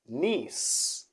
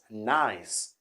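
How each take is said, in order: First: It is not said like English 'nice'. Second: It is said like English 'nice'. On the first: It names the city in France. The speaker calls it right. "it's gonna be Nice" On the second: It is the ordinary English adjective. The speaker calls it wrong. "not nice, as in in English"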